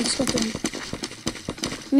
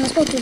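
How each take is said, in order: First: Slow whispered repeat. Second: Said in the usual way. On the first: Real, not acted. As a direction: breathe it out slowly, unvoiced. Repeated under breath.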